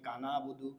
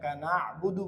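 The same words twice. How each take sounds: First: The vowel after na is plain and soft. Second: The vowel after na is strong from the throat. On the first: The speaker calls it wrong. "এই কানা আবুদু বলা যাবে না" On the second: The speaker calls it right. "কানা আবুদু বলতে হবে"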